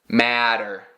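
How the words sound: The middle t is a soft flap, American style.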